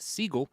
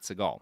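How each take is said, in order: First: The name is said like 'Siegel'. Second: The name is said like 'Seagal'. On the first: This is the original family pronunciation. "originally pronounced Siegel" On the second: This is the later adopted pronunciation. "not Seagal"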